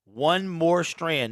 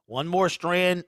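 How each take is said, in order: First: Very slow, stretched words; slow and drawn out. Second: Said in the usual way. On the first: Shown as a demonstration. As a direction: draw each word out slowly. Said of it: "repeats the donor's message slowly". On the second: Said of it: "repeats the donor's message".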